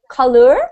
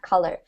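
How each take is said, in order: First: It is said with a British accent. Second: It is said with a Canadian accent. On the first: "In Britain, it's pronounced like color. So there's a little ur sound" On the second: "in Canada, we pronounce it color"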